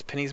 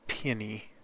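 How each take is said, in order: First: It is said with two syllables, like pennies. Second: It is said with three syllables, pee-oh-nee. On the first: "We always pronounce them pennies here" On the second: "so peony"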